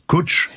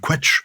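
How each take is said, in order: First: The word begins with a plain k sound. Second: The word begins with a kw sound. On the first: The speaker calls it right. "it's definitely Kutch, to rhyme with butch" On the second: The speaker calls it wrong. "I would have pronounced the Scot- the Welsh word quetch"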